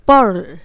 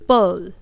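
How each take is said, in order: First: The r sound after the vowel is strongly pronounced. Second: The r sound after the vowel is dropped. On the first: "American accent में बोलूंगी तो मैं यहाँ पर आर को rolled up करूंगी" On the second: "मैंने आपको ब्रिटिश एक्सेंट बताया है जो कि कुछ इस तरह से है"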